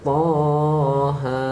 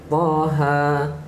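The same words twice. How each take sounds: First: The vowels are drawn out long. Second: The vowels are kept short. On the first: The speaker calls it wrong. "Jangan baca Taha" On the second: The speaker calls it right. "bacaan dia pendek je"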